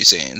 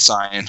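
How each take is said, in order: First: The name begins with a 'say' sound. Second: The name begins with a 'sigh' sound. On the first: The speaker calls it wrong. "It's not supposed to be Saiyan" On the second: The speaker calls it right. "that's how you're supposed to say it"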